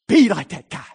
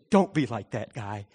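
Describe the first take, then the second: First: Be punched high and loud; stress on Be. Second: Said in the usual way. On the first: Shown as a demonstration. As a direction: hit Be hard, as a bold command. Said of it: "He said". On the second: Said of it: "He didn't say".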